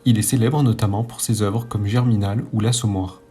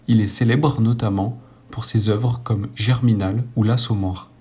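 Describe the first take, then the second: First: It is read at normal speed. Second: It is read slowly.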